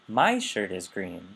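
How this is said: The stress falls on the word my. It answers whose shirt is green. "whose shirt is green?"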